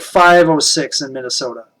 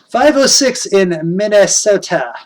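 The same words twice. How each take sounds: First: Said in the usual way. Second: Attempted upper Midwest Minnesota accent. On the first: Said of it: "used to be able to do that". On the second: Shown as a demonstration. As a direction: have a go at a Fargo-style Minnesota accent. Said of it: "I used to be able to do that, that, uh, that accent".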